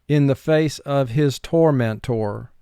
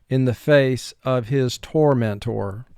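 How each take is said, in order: Both takes have the same delivery.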